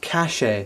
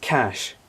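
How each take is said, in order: First: The word has two syllables, with the final E sounded. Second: The word has one syllable, with the E silent. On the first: The speaker calls it wrong. "It's pronounced cachet" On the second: The speaker calls it right. "So it is pronounced cash"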